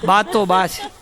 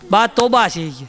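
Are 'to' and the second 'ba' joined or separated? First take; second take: separated; joined. First: 'To' and 'ba' are said as separate words. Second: 'To' and 'ba' run together as one word. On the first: Grandma is simply grandma, said affectionately. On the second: Grandma is an exasperating nuisance.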